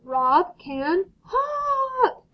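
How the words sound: It is said in an excited way.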